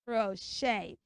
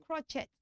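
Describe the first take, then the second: First: "Crochet" as kro-SHAY. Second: "crochet" as KRO-CHET; hard CH in "crochet", T sounded; wrong CH and ET. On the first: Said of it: "It is what?". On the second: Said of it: "So it's not crochet". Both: Shown as a demonstration.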